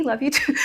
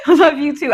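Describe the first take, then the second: First: Soft "Love you too"; quietly and tenderly say "Love you too"; tender reply. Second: Louder, laughing "Love you too"; "Love you too" repeated with a real laugh. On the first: Retold or imitated. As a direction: mom softly answering her son at bedtime. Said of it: "Good night, baby". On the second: Real, not acted.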